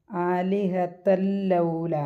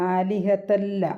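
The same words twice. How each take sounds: First: ആലിഹത്തല്ലൗല chanted very slowly, the tanween merged into the lam; very slow, merged Quranic recitation; slow tajweed recitation. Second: Said in the usual way. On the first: Shown as a demonstration. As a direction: draw ആലിഹത്തല്ലൗല out slowly, joining തല്ല into ലൗല. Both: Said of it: "അപ്പോൾ നമ്മൾ പാരായണം ചെയ്യണമെങ്കിൽ".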